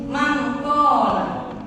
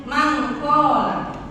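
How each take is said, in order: Both takes have the same delivery.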